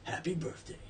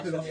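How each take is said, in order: First: It is said in a deep movie-trailer voice. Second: It is said in a normal voice.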